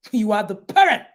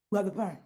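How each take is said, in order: First: "parent" punched at the end; emphatic. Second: Soft, lower repeat; quiet reminder. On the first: Coach reminds the parents who they are, emphatic on "parent". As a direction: stress on "parent", hit louder. Emphatic first take of repeated line. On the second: Coach repeats the reminder to parents, quietly. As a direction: let it sink in quietly. Softer repeat of same line. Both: Real, not acted.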